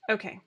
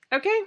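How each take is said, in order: First: "Okay." with a falling tune; settled okay. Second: "Okay?" with a rising tune; questioning okay. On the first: Vlogger answering her own question, with a firm falling "Okay.". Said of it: "answering herself". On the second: Vlogger checking that viewers agree, asking "Okay?" with a rise. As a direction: ask "Okay?" with the pitch lifting at the end. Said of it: "checking in with viewers". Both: Shown as a demonstration.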